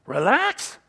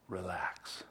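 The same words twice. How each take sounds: First: Loud, higher, disbelieving; incredulous scoff. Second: Low, hushed, easy; soft invitation to relax. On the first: Acted. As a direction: throw the word out in disbelief. Scoffs at relaxing as un-American. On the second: Shown as a demonstration. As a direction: say it softly, inviting calm.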